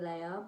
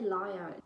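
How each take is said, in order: First: The first vowel sounds like 'lay'. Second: The first vowel sounds like 'lie'. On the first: The speaker calls it right. "in my head that's giving Leia" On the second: The speaker calls it wrong. "if I say liar, it doesn't sound right"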